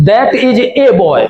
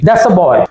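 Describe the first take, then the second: First: Full 'that is', with the article said 'ay'. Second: 'That is' contracted, with the article said 'uh'. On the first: The speaker calls it wrong. "ज्यादातर बच्चे इस तरीके से पढ़ते हुए मिलेंगे" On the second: The speaker calls it right. "दैट इज का contraction कर दिया"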